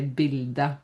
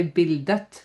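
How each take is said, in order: First: Bilde with no T at the end; right way, silent T. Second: Bildet with the final T pronounced; wrong way, T said. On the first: Teacher showing learners the correct form, silent T. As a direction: say bilde, dropping the final T. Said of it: "we say bilde". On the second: Teacher showing the mistake to avoid, T pronounced. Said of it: "so we don't say bildet". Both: Shown as a demonstration.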